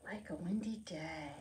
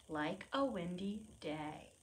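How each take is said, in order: First: Whispered title. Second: Said in the usual way. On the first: Shown as a demonstration. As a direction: whisper Like a windy day softly. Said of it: "title whispered after plain read". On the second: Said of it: "repeated title".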